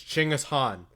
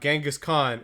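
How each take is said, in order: First: The name is said in the Mongolian way. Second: The name is said in the anglicized English way. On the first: The speaker calls it right. "which would have been more correct to Mongolian" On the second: The speaker calls it wrong. "it is not Genghis Khan"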